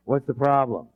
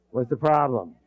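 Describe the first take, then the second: No difference in how they are said.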